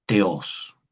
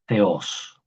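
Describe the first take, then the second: First: "Theos" opening on a hard t, "teos"; modern-style pronunciation as taught. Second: "Theos" with a Castilian-style th at the start; pronounced like a Z. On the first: Teacher contrasting the word for God, hard t pronunciation. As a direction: say "Theos" as te-OS, with plain t. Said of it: "pronuncio más como el griego moder". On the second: Teacher repeating the classical word for God, th pronunciation. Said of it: "como una Z". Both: Shown as a demonstration.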